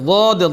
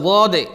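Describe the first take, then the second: No difference in how they are said.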